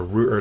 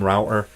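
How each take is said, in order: First: "router" with an "oo" vowel, as in food; router as ROO-ter. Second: "router" with an "ow" vowel, as in cow; router as ROW-ter. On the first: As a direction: say "router" to rhyme with shooter. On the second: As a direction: say "router" to rhyme with doubter. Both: Shown as a demonstration. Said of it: "depending on how you like to pronounce it".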